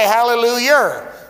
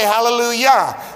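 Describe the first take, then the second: First: It ends in yer, hillbilly style. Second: It ends in yah, standard style.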